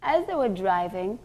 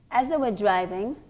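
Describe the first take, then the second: No difference in how they are said.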